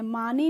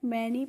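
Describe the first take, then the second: First: The first vowel sounds like 'ah'. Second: The first vowel sounds like 'eh'. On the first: The speaker calls it wrong. "मानी नहीं पढ़ते हैं" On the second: The speaker calls it right. "मैनी पढ़ते हैं"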